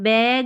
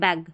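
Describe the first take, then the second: First: The vowel is drawn out long. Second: The vowel is clipped short. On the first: The speaker calls it wrong. "बैग नहीं बोलेंगे" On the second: The speaker calls it right. "हम बोलेंगे बैग"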